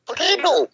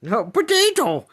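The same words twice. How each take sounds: First: Potato said high and crisp, British po-tah-to style; higher British Potato. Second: Potato said slowly and high, American po-tay-do. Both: Shown as a demonstration. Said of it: "you say potato, I say potato".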